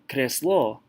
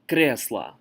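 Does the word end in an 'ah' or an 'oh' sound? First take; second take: oh; ah. First: The final vowel sounds like 'oh'. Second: The final vowel sounds like 'ah'. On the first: The speaker calls it wrong. "it's not kreslo" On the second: The speaker calls it right. "when letter O is not stressed, we say A"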